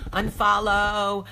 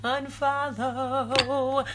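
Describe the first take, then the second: First: Unfollow said slowly and loudly, each syllable pressed; Unfollow, slow and loud, like an order; slow emphatic. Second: Unfollow stretched very long and lifted higher; a long, lilting unfollow, almost sung; drawn-out singsong. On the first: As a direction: hammer the word Unfollow home, slow and firm. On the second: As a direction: draw unfollow out, high and teasing. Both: Shown as a demonstration. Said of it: "click unfollow".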